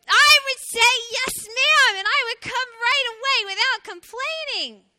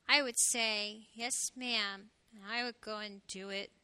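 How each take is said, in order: First: Put-on high, very loud excited child cry. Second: Low, subdued little hedgehog; quiet voice. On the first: Little hedgehog answering the call to dinner, loud. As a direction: perk up and belt it out. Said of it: "said with a loud voice". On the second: Little hedgehog reluctantly agreeing to clean his room, quiet. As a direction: answer quietly and slowly, sinking softer. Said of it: "in a quiet voice he said". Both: A narrator's reading.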